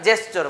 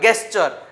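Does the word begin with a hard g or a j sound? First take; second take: j; hard g. First: The word begins with a j sound. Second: The word begins with a hard g sound. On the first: The speaker calls it right. "સાહેબ જેસ્ચર શું વચ્ચે" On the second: The speaker calls it wrong. "ગેસ્ચર વાંચતા હોય"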